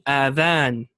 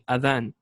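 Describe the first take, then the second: First: The first vowel is drawn out long. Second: The first vowel is kept short. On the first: It means ears. The speaker calls it wrong. "They pronounce it with a med on the on, on the alif" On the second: It means the call to prayer. The speaker calls it right. "Instead of saying adhan"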